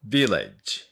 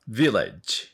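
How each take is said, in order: Both takes have the same delivery.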